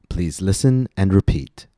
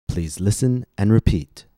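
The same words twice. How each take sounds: No difference in how they are said.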